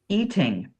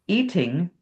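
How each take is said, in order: The two takes are said the same way.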